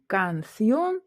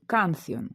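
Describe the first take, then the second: First: "кансьйон" stressed on the end, kan-SYON; stress on last syllable. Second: "кансьйон" stressed on the first syllable, KAN-syon; wrong first-syllable stress. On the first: Teacher showing how the word really sounds, last syllable stressed. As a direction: draw out and lift the final syllable of "кансьйон". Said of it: "так як ми чуємо". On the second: Teacher showing the reading without an accent mark, first-syllable stress. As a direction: hit the first syllable of "кансьйон", let the last drop. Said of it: "то ми б читали б". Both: Shown as a demonstration.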